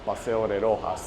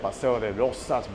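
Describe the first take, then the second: First: The last word is said with an h sound. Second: The last word is said with a ks sound. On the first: "they pronounce it like if it's with a J" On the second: "they write it with an X"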